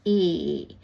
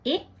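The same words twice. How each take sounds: First: The vowel sound is long. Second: The vowel sound is short. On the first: "जो long sound है" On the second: "ये जो ए है वो छोटा साउंड है"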